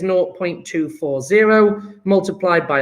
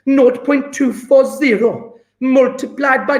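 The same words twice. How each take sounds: First: It is said in the speaker's ordinary accent. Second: It is said in an attempted Welsh accent.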